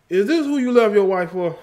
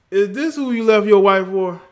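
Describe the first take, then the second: First: Higher, louder mock accusation; ribbing a friend in a raised teasing voice; teasing jab. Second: Higher and louder, calling him out; mock outrage at a friend; loud teasing jab. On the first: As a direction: needle him about leaving his wife. Mock-scolding Country Wayne. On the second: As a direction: shout the accusation across the room.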